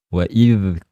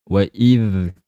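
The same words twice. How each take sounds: No difference in how they are said.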